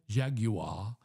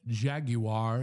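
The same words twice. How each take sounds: First: It is said in a British accent. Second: It is said in an American accent.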